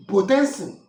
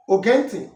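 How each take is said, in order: First: Potensi punched out loud as the model; correct Obio word. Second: Ogenti cited as the word to avoid; wrong dialect word. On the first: Teacher giving the word for listen, correct word Potensi. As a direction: present Potensi firmly as the proper word. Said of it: "is the Obio dialect". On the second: Teacher correcting Obio people on listen, wrong word Ogenti. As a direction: reject Ogenti as the mistaken form. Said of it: "is not the Obio dialect". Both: Shown as a demonstration.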